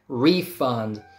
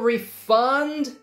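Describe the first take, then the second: First: The stress is on the first syllable. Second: The stress is on the second syllable. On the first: It is a noun: money given back. "if it's a noun, first syllable gets stressed" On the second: It is a verb: to give money back. "It's a verb"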